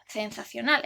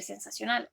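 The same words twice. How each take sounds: First: "sensacional" with the c said as th, sensathional; "sensacional" with a lisping th sound; lisped Castilian z. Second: Said in the usual way. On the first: Shown as a demonstration. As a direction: pronounce the c in "sensacional" like English th. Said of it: "Por ejemplo". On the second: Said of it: "en vez de decir".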